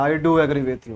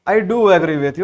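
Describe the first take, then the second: First: The word "do" is said weakly, without force. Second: The word "do" is said strongly, with force. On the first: The speaker calls it wrong. "ऐसा नहीं बोलना है" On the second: The speaker calls it right. "डू को जोरदार तरीके से बोलो ना"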